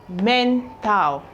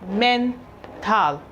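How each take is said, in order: No difference in how they are said.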